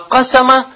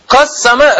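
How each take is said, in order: First: The s sound is short, not doubled. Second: The s sound is held long, doubled. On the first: It means made well known. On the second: It means divided.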